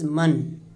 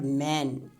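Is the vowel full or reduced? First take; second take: reduced; full. First: The vowel is reduced to a weak schwa. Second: The vowel is a full, clear a sound. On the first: The speaker calls it right. "this is a schwa sound" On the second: The speaker calls it wrong. "It is not man"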